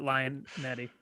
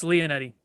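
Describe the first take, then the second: First: Lionetti starting like the word "lion"; Lionetti, first syllable rhyming with "eye"; common mispronunciation. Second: Leonetti with LEE-oh at the start; Leonetti, first syllable rhyming with "see"; correct surname pronunciation. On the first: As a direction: say Lionetti, opening on "lie". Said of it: "everyone pronounces it Lionetti". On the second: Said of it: "No, it's Leonetti". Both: Shown as a demonstration.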